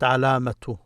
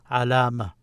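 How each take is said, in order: First: The word ends in a t sound with a vowel. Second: The word ends in a light h sound. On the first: The reading continues on to the next word. "when I continue, I say alamatu ta'nith" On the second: The reading stops at this word. "if I stop here, I would say alama, ma, ha, just like a light ha"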